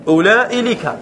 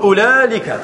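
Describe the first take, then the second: First: "أولئي لك" with hamza, ulaa'i-lika; forbidden long form. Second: "أولالك" said ulaalika, no hamza; allowed form with lam. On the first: Teacher showing the Hijazi form that forbids lam, hamza sounded. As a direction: sound the glottal stop in "أولئي", then add "لك". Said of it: "لا يجوز". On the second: Teacher showing the allowed Tamimi form, joined without hamza. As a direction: run ulaa straight into lika in "أولالك". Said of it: "تجمع بين اللام والكاف فتقول". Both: Shown as a demonstration.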